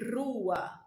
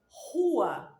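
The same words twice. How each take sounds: First: The r is trilled with the tongue. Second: The r is made in the throat. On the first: This is how a Brazilian would not say it. "não dirá" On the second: This is how a Brazilian would say it. "um brasileiro provavelmente dirá"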